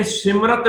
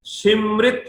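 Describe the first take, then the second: First: ਸਿਮਰਤ with an a before the final t; wrong pronunciation. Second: ਸਿਮਰਿਤ with a short i, sim-rit, rising; correct pronunciation. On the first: Teacher rejecting a misreading, ਸਿਮਰਤ said sim-rat. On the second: Teacher showing the right word, ਸਿਮਰਿਤ said sim-rit. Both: Shown as a demonstration. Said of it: "ਇਹ ਸਿਮਰਤ ਨਹੀਂ ਹੈ".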